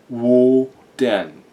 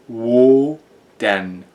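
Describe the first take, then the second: The two takes are said the same way.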